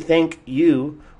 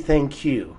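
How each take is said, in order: First: The phrase is said fully and carefully. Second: The phrase is said in a shortened, reduced form. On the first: The speaker calls it wrong. "We don't say thank you" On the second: The speaker calls it right. "we say thank you"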